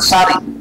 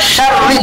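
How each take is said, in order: First: It starts with a plain s sound. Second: It starts with a sh sound. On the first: The speaker calls it wrong. "bukan sari" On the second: The speaker calls it right. "dan syarri"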